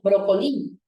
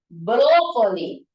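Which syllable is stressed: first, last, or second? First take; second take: last; first. First: The stress is on the last syllable. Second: The stress is on the first syllable. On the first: The speaker calls it wrong. "como si fuera aguda" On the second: The speaker calls it right. "Primero como esdrújulo"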